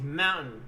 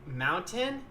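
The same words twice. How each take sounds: First: The middle T is dropped. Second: The middle T is clearly pronounced.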